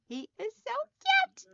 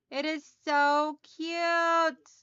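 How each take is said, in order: First: Much higher, gushing over the candle; cutesy gush. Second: Slow, drawn-out admiring coo; slow fond gush. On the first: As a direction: coo over something adorable. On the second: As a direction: linger lovingly on the cute. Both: Real, not acted. Gushing over her new candle.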